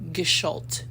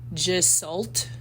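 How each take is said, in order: First: It is pronounced the German way. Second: It is pronounced as English spelling suggests. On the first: The speaker calls it right. "but it's Gestalt. Uh, and it's German" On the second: The speaker calls it wrong. "I want to say it the way it looks"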